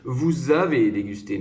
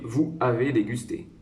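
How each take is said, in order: First: Vous and avez are linked with a z sound. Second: Vous and avez are separated, with no z sound. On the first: The speaker calls it right. "C'est plus facile de dire" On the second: The speaker calls it wrong. "C'est un petit peu heurté comme ça"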